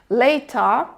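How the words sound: It has a British accent with a stretched vowel.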